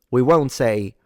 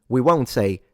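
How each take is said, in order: Both takes have the same delivery.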